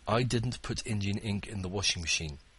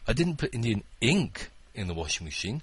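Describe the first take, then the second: First: No word is stressed; the delivery is flat. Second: The word "ink" is stressed. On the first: "I tried to read that with no intonation" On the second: "It was an Indian curry"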